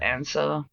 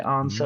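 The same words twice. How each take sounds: First: Other Australian accent, with a short flat 'a' vowel. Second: Adelaide accent, with a softer long 'ah' vowel.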